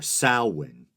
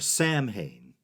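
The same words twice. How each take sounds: First: The middle of the word has a W sound. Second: The middle of the word has no W sound. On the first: The speaker calls it right. "generally pronounced with a W sound" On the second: The speaker calls it wrong. "pronouncing it how it looked"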